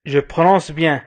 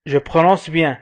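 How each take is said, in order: Both takes have the same delivery.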